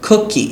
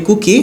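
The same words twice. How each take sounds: First: কুকি the English way, short lax vowel as in "book"; higher-pitched, falling model কুকি, "khuk-ee"; English pronunciation. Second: কুকি the Bengali way, with a pure "oo"; everyday Bangla-style কুকি; Bengali pronunciation. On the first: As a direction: say কুকি as English cookie with puffed k. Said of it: "কিন্তু ইংলিশে". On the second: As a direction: say কুকি as "koo-ki", unaspirated k. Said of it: "বাংলায় বলি কুকি". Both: Shown as a demonstration.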